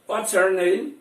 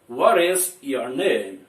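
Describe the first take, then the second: First: "What is" is shortened to "what's". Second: "What is" is said as two full words. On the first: "eles vão contrair aqui para um apóstrofo e coloca só o S" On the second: "não é errado a gente falar assim"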